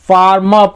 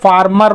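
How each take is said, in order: First: The r sounds are weak or silent. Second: The r sounds are fully pronounced. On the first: The speaker calls it right. "यहाँ पे हम फार्मर पढ़ेंगे ना" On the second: The speaker calls it wrong. "फार्मर मत बोलिएगा"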